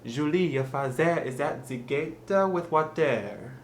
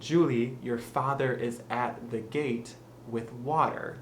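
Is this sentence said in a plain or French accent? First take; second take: French; plain. First: Said in a French accent. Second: Said in a plain English accent. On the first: "to say it with a French accent" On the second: "let's say"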